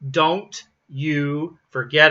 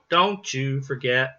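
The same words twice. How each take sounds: First: The T is said separately before 'you'. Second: The T blends smoothly into 'you'. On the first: The speaker calls it wrong. "we could say don't you forget about me, but we don't" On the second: The speaker calls it right. "we pronounce it don't you"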